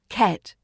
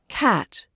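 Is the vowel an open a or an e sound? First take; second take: e; open a. First: The vowel is an e sound. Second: The vowel is an open a sound. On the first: The speaker calls it wrong. "not ket" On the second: The speaker calls it right. "So say cat"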